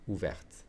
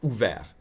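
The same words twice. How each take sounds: First: "Ouverte" ending in a clear T; final T pronounced. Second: "Ouvert" ending on the French R; silent final T. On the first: Teacher contrasting the feminine form, "Ouverte" with T sounded. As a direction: finish "Ouverte" on a released T. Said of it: "with a T because I'm adding an E". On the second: Teacher contrasting the masculine form, "Ouvert" with T silent. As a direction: leave the T off "Ouvert". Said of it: "I'm pronouncing the T because bouche is feminine". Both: Shown as a demonstration.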